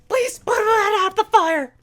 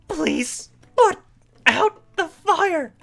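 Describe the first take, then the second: First: It is said hurriedly, with panic. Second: It is said slowly and precisely.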